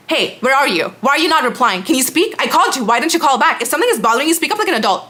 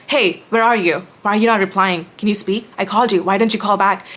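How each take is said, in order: First: Higher, pushy mock nagging of the ex-friend; her demanding tone. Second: Said in the usual way. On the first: Mocking the ex-friend's texts with a higher, nagging voice. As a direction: whine it up high like a clingy, demanding friend. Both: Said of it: "This is the tone she would speak to me in".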